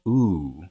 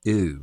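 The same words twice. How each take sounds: First: "oo" said far back in the mouth; back vowel. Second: "ooh" pushed way forward in the mouth; fronted vowel. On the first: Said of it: "what's a back vowel". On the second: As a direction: say "ooh" with the tongue moved forward. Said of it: "starting to come way forward". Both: Shown as a demonstration.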